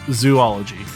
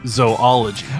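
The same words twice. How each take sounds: First: The first syllable sounds like 'zoo'. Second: The first syllable sounds like 'zoh'. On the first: The speaker calls it wrong. "it's not zoology ... there would be an extra O in there" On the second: The speaker calls it right. "It's either zoology"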